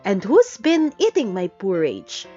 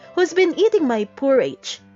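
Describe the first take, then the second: First: It is grumbled in a middle voice. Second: It is squeaked in a high voice.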